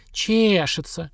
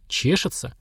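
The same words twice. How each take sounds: First: Тянет «Чешется» выше, насмешливо; передразни с издёвкой; передразнивая. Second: Said in the usual way. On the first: Acted. (передразнивая «Чешется») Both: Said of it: "передразнила женщина".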